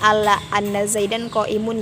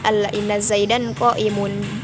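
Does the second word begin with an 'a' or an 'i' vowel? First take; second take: a; i. First: The second word begins with an 'a' vowel. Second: The second word begins with an 'i' vowel. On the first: The speaker calls it wrong. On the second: The speaker calls it right. "wajib dibaca kasroh inna"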